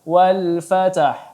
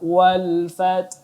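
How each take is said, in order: First: An extra vowel sounds between the t and h. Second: The t and h join with no vowel between. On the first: The speaker calls it wrong. "tidak dibaca wal fatah" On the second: The speaker calls it right. "tetapi kita baca wal fath"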